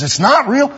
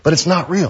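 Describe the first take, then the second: First: High-pitched incredulous echo; surprised question. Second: Said in the usual way. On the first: Retold or imitated. Church member checking what pastor said, surprised. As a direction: echo it back, pitch leaping up.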